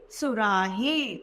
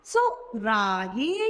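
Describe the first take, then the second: First: सुराही said slowly with a short u, falling; slow clear word. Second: सुराही said slowly, rising at the end; slow sounding out. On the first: Teacher to children, slow falling सुराही. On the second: Teacher to children, slow rising सुराही. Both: Shown as a demonstration. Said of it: "हमारा शब्द बन के आया".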